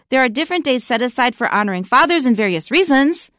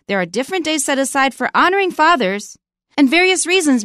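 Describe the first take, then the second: First: It runs on with no pause after fathers. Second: There is a long pause after fathers. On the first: Both fathers and reasons are being honored. The speaker calls it wrong. "Should we honor various reasons? No" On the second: Various reasons begins a separate clause. The speaker calls it right. "You have to put a really long pause after fathers"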